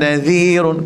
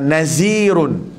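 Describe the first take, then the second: First: The middle consonant is a 'th' with tongue out. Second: The middle consonant is a buzzing 'z' sound. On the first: The speaker calls it right. "Dia kena dengan dz. ... keluar lidah" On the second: The speaker calls it wrong. "Ada orang baca bunyi macam ni, uh, nazirun, z. Tak boleh"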